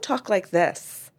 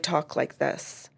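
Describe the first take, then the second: First: The voice is higher and lighter. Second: The voice is deeper and lower. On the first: The speaker calls it wrong. "I don't talk like this" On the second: The speaker calls it right. "I use a deeper voice and ... that I talk like this"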